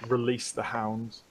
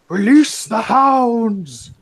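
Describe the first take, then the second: First: It is said in an ordinary speaking voice. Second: It is said in a put-on character voice.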